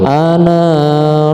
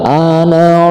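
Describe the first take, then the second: First: The final vowel of ana is lengthened. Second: The final vowel of ana is short. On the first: The speaker calls it wrong. "nggak boleh ana rasul" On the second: The speaker calls it right. "harus dipendekkan"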